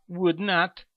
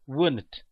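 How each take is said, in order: First: "would not" as two separate words; full form. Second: "wouldn't" run together as one word; contracted form. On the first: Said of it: "Em vez de você falar". (forma completa "would not", sem contração) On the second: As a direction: shorten it to "wouldn't", no full "not". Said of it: "usaremos as contrações verbais". (forma contraída "wouldn't", numa palavra só) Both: Shown as a demonstration.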